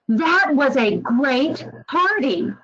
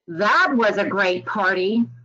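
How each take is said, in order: First: It is said with genuine, lively enthusiasm. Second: It is said with a sarcastic, mocking tone. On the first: The party really was great. "It really conveyed how great the party actually actually was" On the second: The party was actually not great. "You can probably hear a little bit of sarcasm coming through"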